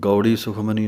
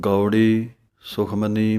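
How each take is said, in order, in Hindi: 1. दोनों शब्द बिना ठहराव के एक साथ बोले गए हैं। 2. पहले शब्द के बाद ठहराव है। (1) "ਗੌੜੀ ਸੁਖਮਨੀ ਨਹੀਂ ਕਹਿ ਦੇਣਾ" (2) "ਗੌੜੀ ਵੱਖਰਾ ਪੜ੍ਹਨਾ ਹੈ"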